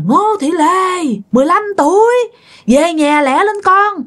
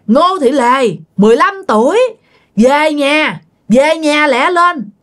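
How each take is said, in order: First: Calling from the roof. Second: Calling out. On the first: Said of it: "ông ngoại kêu nha". (gọi to, kéo dài, giọng cao từ trên nóc nhà) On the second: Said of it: "Tía lên tía kêu nha". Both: Retold or imitated.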